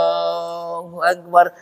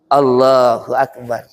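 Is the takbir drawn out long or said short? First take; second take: long; short. First: The takbir is drawn out long. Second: The takbir is said short.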